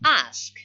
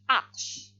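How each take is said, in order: First: The s sound comes before the k sound. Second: The k sound comes before the s sound. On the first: This is the present-day form. "The word ask" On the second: This is the older form from the past. "were ask"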